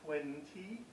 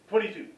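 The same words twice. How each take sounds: First: The parts are said separately and carefully. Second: The parts are run together into one word. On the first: The speaker calls it wrong. "We don't say" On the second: The speaker calls it right. "We scrunch it all together"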